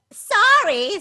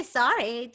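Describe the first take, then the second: First: High loud startled sorry. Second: Said in the usual way. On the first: Acted. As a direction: yelp the apology. Dragon apologizes in fright.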